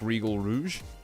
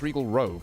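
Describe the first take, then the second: First: The second word is said like 'rouge'. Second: The second word is said like 'rogue'. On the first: The speaker calls it wrong. "I'd always pronounce this as like Regal Rouge" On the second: The speaker calls it right. "but no, it's Regal Rogue"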